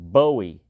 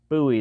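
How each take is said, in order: First: The name rhymes with Joey. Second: The name rhymes with Louis. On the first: The speaker calls it wrong. "that's not the way it's pronounced" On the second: The speaker calls it right. "the name rhymes with Louis, not Joey"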